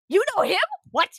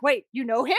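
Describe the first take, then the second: First: Louder, much higher incredulous question; mock-shocked, pitched up and loud; astonished repeat. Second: Said in the usual way. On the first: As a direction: burst out in acted disbelief.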